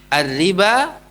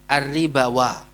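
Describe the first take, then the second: First: The word ends on a long 'a' with no 'wa'. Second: An extra 'wa' syllable is added at the end. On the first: The speaker calls it right. "Jadi kalau kita lafalkan ya alif" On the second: The speaker calls it wrong.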